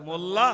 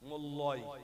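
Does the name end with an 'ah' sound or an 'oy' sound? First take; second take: ah; oy. First: The name ends with an 'ah' sound. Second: The name ends with an 'oy' sound. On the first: The speaker calls it right. "কোথায় মোল্লা আর কোথায় মোল্লয়" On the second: The speaker calls it wrong. "বানান লিখছি M O double L Y"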